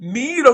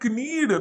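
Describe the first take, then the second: First: The word starts with an n sound. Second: The word starts with a k sound. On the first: The speaker calls it right. "నీడ్ వస్తుంది" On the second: The speaker calls it wrong. "క్నీడ్ రాదు"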